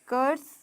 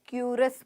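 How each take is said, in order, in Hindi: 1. यह 'ker' ध्वनि से शुरू होता है, एक अक्षर। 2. यह 'kyoo' ध्वनि से शुरू होता है, दो अक्षर। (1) "यहाँ पर कर्स" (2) "बहुत बारी गलती बोल देते, क्यूरस बोल देते"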